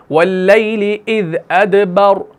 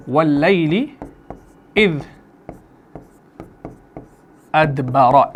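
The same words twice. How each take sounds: First: अदबर with a thick, full-mouthed r and no final vowel; heavy r at the stop. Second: अदबरा with the final vowel a sounded out; full vowel on अदबरा. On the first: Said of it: "अब रॉ को मैं मोटा कर रहा हूं". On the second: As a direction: say अदबरा ending on a clear a. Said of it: "ऐसे है अदबरा". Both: Shown as a demonstration.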